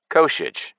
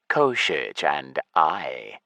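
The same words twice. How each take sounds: First: Said in the usual way. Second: Koshich said low and slow, falling; lich voice. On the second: Acted. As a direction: drag out Koshich, deep and grave. Lich names his ally.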